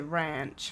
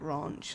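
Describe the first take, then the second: First: The word is said with an American-style vowel. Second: The word is said with an English-style vowel. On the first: This is how the other person says it. "I believe you say ranch" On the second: This is how the speaker says it. "Not ranch, like I do"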